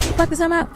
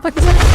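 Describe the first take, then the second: First: Said in the usual way. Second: Yelled at the screen, much louder; loud outburst. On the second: Real, not acted. Gamer fleeing the monster, yelling it out loud. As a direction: blurt it out in a burst of panic. Repeating the line, escalating.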